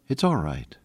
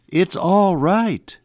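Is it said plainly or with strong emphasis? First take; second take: plainly; strong emphasis. First: It is said gently, without extra emphasis. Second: It is said firmly, with extra emphasis.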